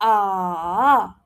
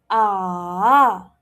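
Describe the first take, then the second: First: The pitch drops and then rises. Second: The same.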